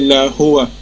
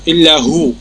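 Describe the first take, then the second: First: The last word ends with an 'a' vowel. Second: The last word ends without a final vowel. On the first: "он говорит, что он ла илляха илля хуа" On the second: "но когда останавливаешь, будет илля ху"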